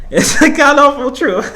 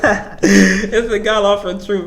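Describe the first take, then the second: First: Louder and higher, stated as fact; a loud, pitched-up announcement; emphatic declaration. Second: Slow, laughing through the words; amused, unhurried laugh-talk; laughing repeat. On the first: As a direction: proclaim it boldly. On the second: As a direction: chuckle as you say it again. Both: Real, not acted. Repeats the line, then laughs.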